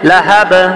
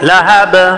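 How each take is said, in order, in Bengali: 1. শব্দটি খালি b ধ্বনিতে শেষ হয়েছে। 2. শব্দটি খালি b ধ্বনিতে শেষ হয়েছে।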